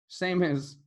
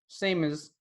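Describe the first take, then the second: Both takes have the same delivery.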